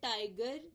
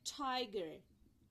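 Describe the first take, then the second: First: The first t has no puff of air. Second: The first t has a puff of air. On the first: "normally तो हम कहते हैं टाइगर" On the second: "टाइगर की जगह हम क्या बोलेंगे?"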